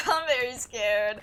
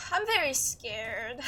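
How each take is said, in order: First: Much louder, laughing through the words. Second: Slow, tearful quaver of real fear; trembling scared. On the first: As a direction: laugh at your own fear. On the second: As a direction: let the fear crack through each word. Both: Real, not acted.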